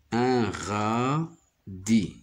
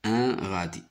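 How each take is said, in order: First: "Un radis" drawn out as un... ra... di; very slow, radis split into ra - di; syllable by syllable. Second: Said in the usual way. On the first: Shown as a demonstration. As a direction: sound out radis with each syllable held. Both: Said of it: "J'y découpe les mots comme ça".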